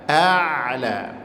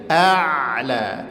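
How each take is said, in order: The two takes are said the same way.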